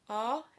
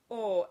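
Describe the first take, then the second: First: The vowel is said with the mouth open. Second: The vowel is said with the mouth closed. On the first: "Open O is pronounced" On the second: "closed O is pronounced"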